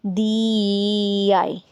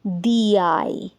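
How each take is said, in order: First: "दी आई" stretched very slow, y glide heard; "दी आई" slowly, y glide between; drawn-out demo. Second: "दी आई" run together with no gap; "दी आई" blended as one sound; linked vowel demo. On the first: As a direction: stretch "दी आई" to show the y sound. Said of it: "य की sound निकल रही है". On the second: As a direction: glide "दी" straight into "आई". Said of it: "मैंने किस तरह से बोला". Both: Shown as a demonstration.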